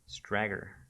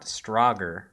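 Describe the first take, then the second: First: The name rhymes with swagger. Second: The name does not rhyme with swagger. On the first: The speaker calls it right. "it rhymes with swagger" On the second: The speaker calls it wrong.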